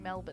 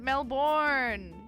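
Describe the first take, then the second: First: The name is said the local Australian way. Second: The name is said the non-local way. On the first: The speaker calls it right. "We say Melbourne" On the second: The speaker calls it wrong. "we don't pronounce it Melbourne"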